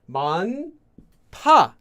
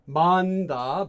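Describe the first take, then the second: First: The consonant after the n is strong. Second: The consonant after the n is plain. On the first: The speaker calls it right. "it makes it into a strong consonant" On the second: The speaker calls it wrong. "this is pronounced as not"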